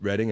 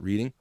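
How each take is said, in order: First: The first vowel sounds like in 'red'. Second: The first vowel sounds like in 'reed'. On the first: It names the town. The speaker calls it right. "See how I said Reading" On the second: It is the everyday word. The speaker calls it wrong. "and not reading"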